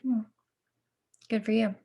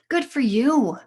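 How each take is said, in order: First: It sounds flat and dismissive. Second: It sounds warm and enthusiastic.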